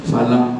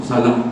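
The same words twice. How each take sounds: No difference in how they are said.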